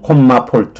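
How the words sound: Comma is said with Korean-style vowels, like 'komma'. "우리식으로 하면"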